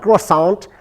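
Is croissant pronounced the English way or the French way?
English. The word is pronounced the English way. The speaker calls it wrong. "my son's like, can I have a croissant?"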